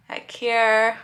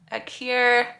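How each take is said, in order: Both takes have the same delivery.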